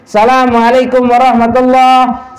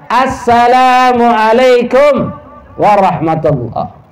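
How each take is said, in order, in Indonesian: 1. Salam itu dimulai tanpa artikel 'as-'. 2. Salam itu dimulai dengan artikel 'as-'. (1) "Jika ada orang salam mengucapkan seperti ini ... Tidak sah" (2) "Harus ada alif lamnya"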